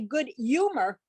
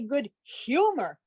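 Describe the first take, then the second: First: The h sound at the start is dropped. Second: The h sound at the start is pronounced. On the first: This is how native New Yorkers say it. "she didn't pronounce the H, because apparently in New York, you don't" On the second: This is how someone from Boston says it. "I'm from Boston, I say good humor"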